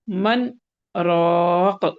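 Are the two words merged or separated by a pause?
paused. A short pause separates the two words. The speaker calls it right. "आपको यहाँ मन छोटा-सा पॉज़ देना है, सक्ता करना है और फिर कहना है राक़"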